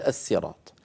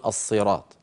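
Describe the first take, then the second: First: "الصراط" with a light, plain s; thin the ṣ of "الصراط" to a sīn; original pronunciation. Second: "الصراط" with a heavy emphatic ṣ; thickened sīn. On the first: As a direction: say "الصراط" as as-sirāṭ, s not ṣ. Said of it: "ينطقها على الأصل فيقول". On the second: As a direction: darken the first sound of "الصراط" into ṣād. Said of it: "يفخمون السين فيقولون". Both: Shown as a demonstration.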